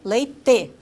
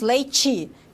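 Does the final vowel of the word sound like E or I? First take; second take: E; I. First: The final vowel is kept as an E sound. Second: The final vowel is raised to an I sound. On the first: This is the Curitiba and southern way of speaking. "lá eles falam leite" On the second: This is the northern Paraná way of speaking. "Nós falamos leite"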